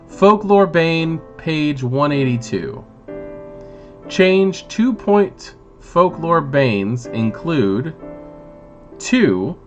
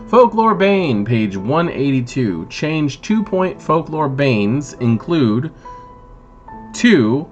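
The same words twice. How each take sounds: First: It is read at a slower pace. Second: It is read at a faster pace.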